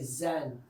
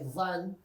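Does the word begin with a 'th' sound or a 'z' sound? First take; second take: z sound; th sound. First: The word begins with a 'z' sound. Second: The word begins with a soft 'th' sound. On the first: It sounds like the word for woman. "they say zan" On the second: It means speculation. "they don't say dhan"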